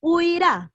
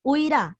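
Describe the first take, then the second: First: Huirá said high and loud, falling; stress on Huirá. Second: Huirá loud, falling; repeated stress on Huirá. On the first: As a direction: call out Huirá like a quiz item. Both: Shown as a demonstration. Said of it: "te voy a repetir el jueguito".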